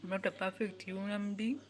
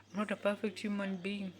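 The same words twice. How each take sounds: The two takes are said the same way.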